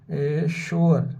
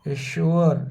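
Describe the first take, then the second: First: एश्योर said slowly, syllables drawn apart; slow down on एश्योर for the class; slow sounding out. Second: Said in the usual way. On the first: Shown as a demonstration. Teacher to students, saying the word slowly. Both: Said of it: "इसी तरह students अश्योर है".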